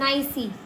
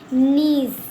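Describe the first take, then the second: First: The vowel sounds like 'eye', with a final 'ee'. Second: The vowel is a long 'ee', ending in 's'. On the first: The speaker calls it wrong. "बहुत लोग ऐसे पढ़ते हैं नाइसी" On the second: The speaker calls it right. "इसको पढ़ेंगे हम नीस"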